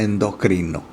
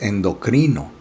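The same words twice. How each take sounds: First: It uses a regional Latin American pronunciation. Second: It uses the standard academy pronunciation. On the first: The speaker calls it wrong. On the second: The speaker calls it right. "pero lo correcto es endocrino"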